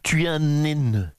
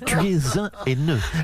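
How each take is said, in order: First: An N sound is linked onto 'haineux'. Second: No N sound is linked onto 'haineux'. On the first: The speaker calls it wrong. "Un haineux avec un grand N" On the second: The speaker calls it right. "Liaison avec le S, pas avec le H aspiré"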